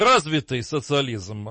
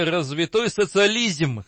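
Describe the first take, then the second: First: The adjective ends in an unstressed -yy. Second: The adjective ends in a stressed -oy. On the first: This is the correct form. The speaker calls it right. "правильно развитый социализм" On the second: This is how the leaders said it, illiterately. The speaker calls it wrong. "а коммунистические руководители говорили развитой социализм"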